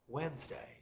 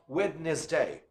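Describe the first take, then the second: First: The D sound in the middle is silent. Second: The D sound in the middle is pronounced. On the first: The speaker calls it right. "the D sound is not pronounced. We say Wednesday" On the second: The speaker calls it wrong. "We don't say Wednesday. Wrong"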